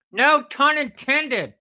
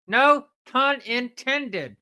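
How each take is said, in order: First: Slow, high and loud; hammed-up slow delivery; slow punchline. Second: Even slower, a bit higher; slow repeated quip; slower echo. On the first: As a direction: draw the quip out. Repeated punchline quip. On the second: Acted. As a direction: stretch the quip out once more.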